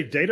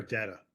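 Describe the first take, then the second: First: DATA as DAY-tuh; first vowel of DATA like "day"; long-A data. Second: DATA as DAT-uh; first vowel of DATA like "dad"; short-A data. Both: Shown as a demonstration. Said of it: "did you say data or data".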